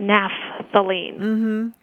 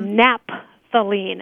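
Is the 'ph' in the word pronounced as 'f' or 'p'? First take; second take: f; p. First: The ph is pronounced as an f sound. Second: The ph is pronounced as a p sound. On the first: "as opposed to" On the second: "sometimes people just abbreviate the PH as a P"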